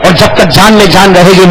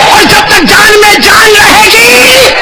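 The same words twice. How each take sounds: First: Said in the usual way. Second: High, slow shouted vow; loud pledge. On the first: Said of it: "یوں کہو،". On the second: Shown as a demonstration. Preacher shouting the vow with the crowd, high and slow. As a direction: belt it out for the crowd. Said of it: "تو ساتھ میں بولو،".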